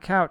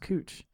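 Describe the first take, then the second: First: The vowel sounds like 'ow' in cow. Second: The vowel sounds like 'oo' in moon. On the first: The speaker calls it wrong. "It's not couch" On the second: The speaker calls it right. "but it's pronounced Cooch"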